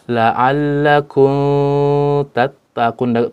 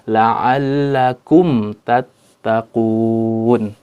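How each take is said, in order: First: The m is hidden and nasalized before the t. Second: The m is pronounced clearly before the t. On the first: The speaker calls it wrong. "juga tidak dibaca dengan ikhfa" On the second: The speaker calls it right. "tapi dengan izhar, jelas, huruf mimnya harus jelas"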